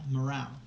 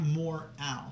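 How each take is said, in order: First: It sounds like one word, 'morale'. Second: It sounds like two words, 'more Al'. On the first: The speaker calls it right. "At least that's how I say it" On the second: The speaker calls it wrong. "Not more Al"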